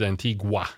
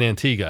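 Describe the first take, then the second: First: The word ends with a 'gwa' sound. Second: The word ends with a plain 'ga' sound. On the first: The speaker calls it wrong. "which is totally incorrect" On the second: The speaker calls it right. "that's the correct pronunciation of Antigua"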